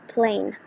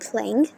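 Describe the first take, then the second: First: The word ends in a plain n sound. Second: The word ends with a full ng sound. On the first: "you have to pronounce it as plain" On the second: "if there is a word like playing"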